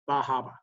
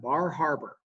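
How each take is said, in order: First: The R sounds are dropped entirely. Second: The R sounds are clearly pronounced. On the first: "the R's do not exist" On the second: "I would pronounce that Bar Harbor"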